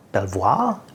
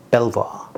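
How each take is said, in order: First: "Belvoir?" said as "pel-vwa" with a rising, unsure tune; questioning try. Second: "Belvoir?" said as "pel-va" with a falling, settled tune; settling try. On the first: Reviewer testing the French name on the audience, unsure. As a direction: ask it, doubting your own French. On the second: Reviewer settling on a French name after several tries. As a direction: land it as if you've decided. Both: Shown as a demonstration. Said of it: "I cannot pronounce French words".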